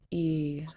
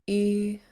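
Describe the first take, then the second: First: The long vowel is said on a low tone. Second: The long vowel is said on a high tone. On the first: "Long and low double e" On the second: "Long and high"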